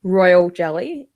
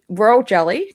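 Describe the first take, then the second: First: It is said slowly and carefully. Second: It is said at normal, faster speed.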